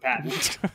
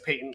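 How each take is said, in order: First: The word has an American pronunciation. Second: The word has a British pronunciation. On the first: "instead of patent" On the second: "because Mark Brown is British, so it's patent"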